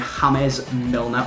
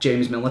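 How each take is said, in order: First: James is said the Spanish way, like Hamez. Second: James is said the English way, like Jaymz.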